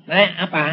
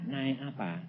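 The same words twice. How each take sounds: First: Loud, brusque husband's question; abrupt question. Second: Soft, lowered question; gentler question. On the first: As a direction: ask it loudly and suddenly. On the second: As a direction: ask it quietly of a hesitant wife. Question repeated softly after wife hesitates. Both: Retold or imitated.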